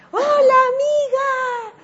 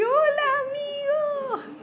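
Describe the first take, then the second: First: High, loud, drawn-out greeting across the street; calling out. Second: High, stretched-out greeting called back; calling back. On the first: Man greeting the speaker from a distance, called out loud. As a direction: call out slowly to a friend far away. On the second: The speaker calling back to the man, high and stretched. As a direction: answer the call from afar, drawn out. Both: Retold or imitated.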